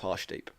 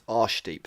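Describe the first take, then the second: First: The name starts with a clear H sound. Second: The name starts with no H sound. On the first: The speaker calls it right. "It's Harshdeep with an H" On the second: The speaker calls it wrong. "we would drop the H. So it isn't"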